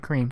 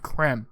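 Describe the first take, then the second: First: It is said like the English word 'cream'. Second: It is said as 'creme', unlike 'cream'. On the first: The speaker calls it wrong. "don't say cream" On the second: The speaker calls it right. "You have to say creme"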